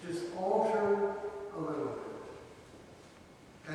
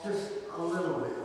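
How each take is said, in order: First: "a little bit" whispered very softly and slowly; hushed whisper. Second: Said in the usual way. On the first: Shown as a demonstration. Preacher whispers "a little bit" to the congregation, very soft and slow. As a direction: breathe "a little bit" like a secret.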